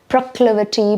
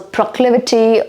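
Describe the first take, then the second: First: The first syllable sounds like 'pra'. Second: The first syllable sounds like 'pro'.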